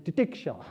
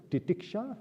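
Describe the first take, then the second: First: "titiksha" with a settled, falling end; a strong word, "titiksha", said with weight; sounding out titiksha. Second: "titiksha" sung up, rising at the end; a teacher voicing "titiksha" for the class to repeat; sounding out titiksha. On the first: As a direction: land "titiksha" firmly, dropping on the last syllable. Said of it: "Let us sound it". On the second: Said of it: "Let us sound that word". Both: Shown as a demonstration.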